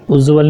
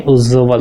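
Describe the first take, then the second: First: "उज्ज्वल" with a single consonant before v; wrong pronunciation. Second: "उज्ज्वल" with the j held double; correct pronunciation. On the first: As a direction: say "उज्ज्वल" lightly as uj-val. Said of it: "उज्ज्वल नहीं". ("उज्ज्वल" को उज्वल बोलना) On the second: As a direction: hold the j of "उज्ज्वल" before val. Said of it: "दो बार ज". ("उज्ज्वल" में ज दो बार) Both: Shown as a demonstration.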